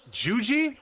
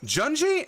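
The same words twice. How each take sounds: First: Juji said as "choo-jee" with no n, rising like a question; unsure pronunciation. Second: Junji said as "chun-jee" with the n, pitched up as a question; corrected pronunciation. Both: Real, not acted. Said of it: "is that how you pronounce it".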